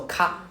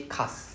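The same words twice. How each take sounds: First: Plain open ka with no stop; ka said short with no held s. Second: Kas with the s held into a pause. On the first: Teacher showing the wrong way, short ka. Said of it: "instead of saying ka". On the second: Teacher showing the right way, kas with held s. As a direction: say kas, leaning on the s before a break. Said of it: "we say kas". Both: Shown as a demonstration.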